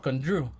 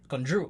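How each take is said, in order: First: The name is said with Spanish pronunciation. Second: The name is said with English pronunciation. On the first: The speaker calls it right. "I say" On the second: The speaker calls it wrong. "I don't say Drew in English"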